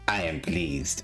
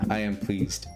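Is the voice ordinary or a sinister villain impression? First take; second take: sinister villain; ordinary. First: It is said in a raspy, sinister villain voice. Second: It is said in a light, ordinary voice.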